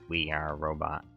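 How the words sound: It is said in a put-on robotic voice.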